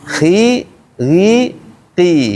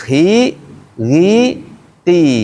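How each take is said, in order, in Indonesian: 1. Suku katanya diucapkan dengan bibir ditarik ke belakang. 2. Suku katanya diucapkan dengan bibir ditarik ke belakang.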